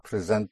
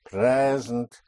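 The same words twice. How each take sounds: First: "present" said pre-ZENT, like the verb; stress on second syllable. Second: "present" said PRE-zent, first syllable held long; slow push on the start of "present"; stress on first syllable. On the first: Teacher shows the wrong word, final-syllable stress. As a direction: push the end of "present", not the start. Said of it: "not present". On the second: Teacher gives the right word, long first-syllable stress. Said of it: "not present, but present". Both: Shown as a demonstration.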